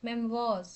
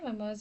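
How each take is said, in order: First: The second syllable sounds like 'wahz'. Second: The second syllable sounds like 'moys'. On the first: The speaker calls it right. "മെംവോസ് എന്നാണ് pronounce ചെയ്യേണ്ടത്" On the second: The speaker calls it wrong. "മെമ്മോയ്സ് എന്നല്ല"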